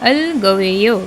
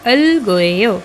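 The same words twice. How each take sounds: Both takes have the same delivery.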